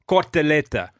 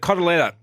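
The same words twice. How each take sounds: First: It is said with an Italian accent. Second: It is said with an English accent.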